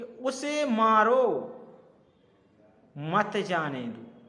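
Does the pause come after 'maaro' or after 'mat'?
after maaro. The pause comes after 'maaro', meaning hit him.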